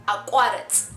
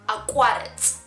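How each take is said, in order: No difference in how they are said.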